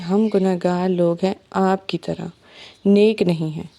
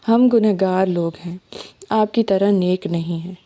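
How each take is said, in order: First: The pause comes after 'aapki tarah'. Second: The pause comes after 'log hain'. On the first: The speakers and the listener are both sinners. The speaker calls it wrong. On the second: The speakers are sinners, unlike the virtuous listener. The speaker calls it right.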